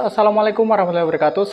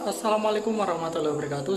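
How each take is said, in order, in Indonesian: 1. Suaranya terdengar dekat dan lebih keras. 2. Suaranya terdengar jauh dan lebih pelan. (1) "suaranya lebih keras ya. Soalnya kan emang ini mikrofonnya ada di deket" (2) "mikrofonnya di handphone dan jaraknya lumayan jauh"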